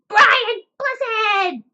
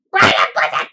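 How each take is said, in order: First: High, loud proclaimed name; high shout. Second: Low, loud boom; booming actor voice. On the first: Acted. Booming the actor's name. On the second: Retold or imitated. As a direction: bellow the name like a big actor.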